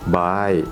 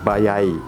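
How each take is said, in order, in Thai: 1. ออกเสียงโดยไม่มีเสียงเลื่อนระหว่างสระ 2. ออกเสียงโดยมีเสียงเลื่อน y ระหว่างสระ (1) "อันแรกที่เราใช้กันอยู่เรื่อยๆในห้องเรียน" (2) "ประสบการณ์ตรงยังไม่เคยเห็นเจอคนญี่ปุ่นพูดแบบนี้"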